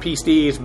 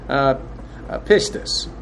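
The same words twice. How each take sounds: First: The word is said with Greek-like sounds. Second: The word is said with English-like sounds. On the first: The speaker calls it right. "that is technically the correct pronunciation" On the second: The speaker calls it wrong. "it's anglicized somewhat, and just the way I do it"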